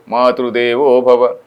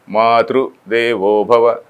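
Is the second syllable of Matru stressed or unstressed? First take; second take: unstressed; stressed. First: The second syllable of Matru is unstressed. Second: The second syllable of Matru is stressed. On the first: He becomes a god for the mother. "If I say Matru Devo Bhava" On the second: One for whom the mother is a god. "on that thru, that emphasis is there on Matru"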